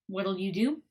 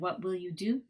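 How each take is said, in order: First: What and will merge into one short word. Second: What and will are said as separate words.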